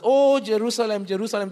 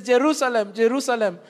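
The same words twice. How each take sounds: First: Grieving cry over the city; pathos-filled lament. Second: Intense affection. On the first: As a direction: let the repeat fall away with tender ache. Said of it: "the repetition is for intensity of affection". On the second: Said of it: "there is intense affection". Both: Shown as a demonstration.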